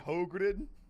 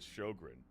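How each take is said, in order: First: The name is said in a guessed Swedish way. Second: The name is said in an Americanized way. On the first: "if there's any Swedes in the chat, do you just say Hogren?" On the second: "I'm guessing that's like an Americanized pronunciation of it"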